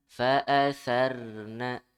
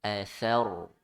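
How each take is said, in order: First: Fa'atharna with a thin, light r; fa'atharna read without tafkhim, the wrong way. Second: Athar with a thick, heavy r. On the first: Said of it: "Sarna itu salah". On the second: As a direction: read Athar with the r full and dark. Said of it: "ro sukun sebelumnya fathah dibaca tebal". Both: Shown as a demonstration.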